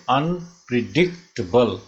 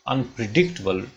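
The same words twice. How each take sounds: First: unpredictable stretched into separate beats; measured teaching breakdown of "unpredictable"; syllable by syllable. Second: Said in the usual way. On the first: Shown as a demonstration. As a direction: say "unpredictable" in spaced syllables, un-pre-dic-tuh-bul. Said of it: "ये five syllable हुए". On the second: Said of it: "डा पे primary stress है".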